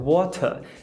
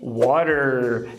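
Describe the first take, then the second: First: It ends in a vowel with no r. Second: It ends with a clearly pronounced r sound.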